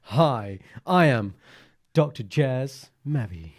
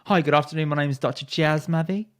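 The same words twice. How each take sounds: First: Louder, slow smooth self-introduction; imitating himself. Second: A smooth, slightly raised self-introduction; imitation of Jazz. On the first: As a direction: deliver it like a smooth rock star. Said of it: "exactly that when I think about doing an impression of you". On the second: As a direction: lightly mimic his suave doctor intro. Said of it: "Let's hear the imitation".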